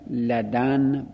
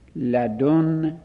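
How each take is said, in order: First: The d is followed by an a vowel. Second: The d is followed by a u vowel. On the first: "لدن با فتح دال" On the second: "لدن با ضم دال"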